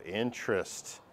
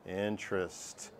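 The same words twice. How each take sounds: First: Said in the usual way. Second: "interest" slowed right down, lower and softer; drawn-out joke. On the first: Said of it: "I said that like that". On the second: Shown as a demonstration. Teacher repeats "interest" slowly as a stupid joke. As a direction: stretch "interest" out slowly and quietly. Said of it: "I said that like that for two reasons".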